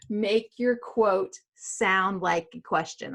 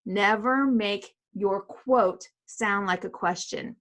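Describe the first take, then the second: First: Slow, deliberate warning; emphatic rule. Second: Slow, with "Never" leaned on hard; slow emphatic repeat. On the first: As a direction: spell it out slowly so it sticks. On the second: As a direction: hammer the rule home word by word. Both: Shown as a demonstration. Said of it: "I'm gonna say that one one more time".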